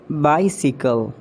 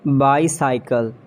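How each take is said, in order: First: "Bicycle" as BY-si-kul; sickle ending. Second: "Bicycle" as BY-sigh-kul; long second I in "Bicycle"; mispronounced bicycle. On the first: Shown as a demonstration. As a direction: rhyme the end of "Bicycle" with sickle. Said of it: "It's a sickle". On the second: Acted. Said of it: "you have to correct me".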